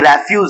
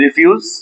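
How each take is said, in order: First: The first syllable has an open 'reh' sound. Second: The first syllable has a short 'rih' sound. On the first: It means garbage or waste. "ये रेफ्यूज है जो हम पढ़ रहे हैं... वो रे" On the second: It means to say no. "इसको रिफ्यूज बोलते हैं, ये वर्ब है"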